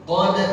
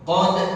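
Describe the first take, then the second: The two takes are said the same way.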